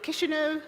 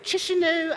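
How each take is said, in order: First: The city name is said the local way. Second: The city name is said the anglicized way. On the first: The speaker calls it right. "I had to go online to know how to pronounce it" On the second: The speaker calls it wrong. "I knew I was saying it wrong"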